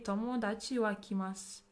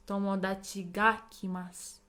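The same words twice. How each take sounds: First: Said in the usual way. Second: "Tomodachi ga" stressed, with weight landing on "ga"; emphasis on friend. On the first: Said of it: "But I'm putting emphasis". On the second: Shown as a demonstration. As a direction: punch "ga" after "Tomodachi". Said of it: "I'm putting emphasis".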